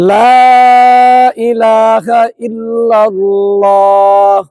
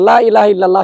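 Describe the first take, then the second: First: The long vowels are held out their full length. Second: The long vowels are cut short and rushed. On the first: The speaker calls it right. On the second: The speaker calls it wrong.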